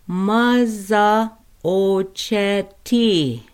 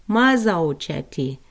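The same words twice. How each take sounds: First: "Maza ocheti" drawn out slowly, each syllable louder; slow careful Lakota. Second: Said in the usual way. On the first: Shown as a demonstration. Teacher showing the class a word, slow and careful. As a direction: stretch out "Maza ocheti" for learners. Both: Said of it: "let's pronounce stove together".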